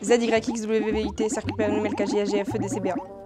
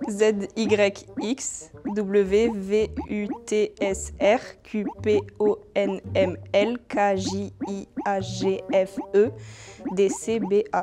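First: It is recited faster than before. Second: It is recited at a normal speed.

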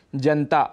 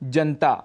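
First: The vowel after the n is dropped. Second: The same.

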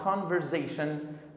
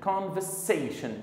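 First: The middle consonant is a buzzing Z sound. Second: The middle consonant is a hissing S sound. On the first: The speaker calls it wrong. "It is not conversation" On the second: The speaker calls it right. "We have to pronounce it like conversation"

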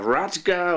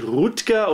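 First: The name has an open a and hard g. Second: The name is said with a hard g ending. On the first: "oder Radger oder sonst was" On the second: "Also nicht Rutger"

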